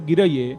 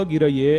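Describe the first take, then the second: Both takes have the same delivery.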